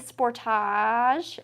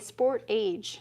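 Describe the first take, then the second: First: It is pronounced the Canadian way. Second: It is pronounced the American way. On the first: "why do we say sportage" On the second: "the Americans say sport age"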